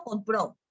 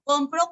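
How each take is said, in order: First: "compró" leaning on the last syllable; stress on PRÓ of compró. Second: "compro" leaning on the first syllable; stress on COM of compro. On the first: (acento final en PRÓ de «compró») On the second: (acento en COM de «compro») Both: Shown as a demonstration. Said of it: "el acento cumple función distintiva".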